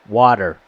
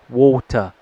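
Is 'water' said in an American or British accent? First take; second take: American; British. First: The t is a soft d sound. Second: The t is hard and the r is dropped. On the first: "how we pronounce water, notice that the T is a a soft D" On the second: "a British person would pronounce this water"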